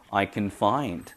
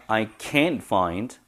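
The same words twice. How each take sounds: First: "can" weak as kuhn, stress on "find"; unaccented can. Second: "can't" stressed with a full a, t dropped; accented can't. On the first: Teacher shows the positive form, weak "can", stressed "find". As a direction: slip past "can" and hit "find". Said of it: "긍정이죠". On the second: Teacher shows the negative form, stress on "can't". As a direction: lean on "can't" before "find". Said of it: "부정입니다". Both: Shown as a demonstration.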